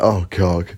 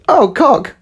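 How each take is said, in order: First: It is said in a low, deep voice. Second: It is said in a much higher voice.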